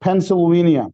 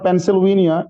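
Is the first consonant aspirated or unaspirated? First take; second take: aspirated; unaspirated. First: The first p is said with a puff. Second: The first p is said without a puff. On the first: The speaker calls it right. "it's Pennsylvania" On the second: The speaker calls it wrong. "It's not Pennsylvania"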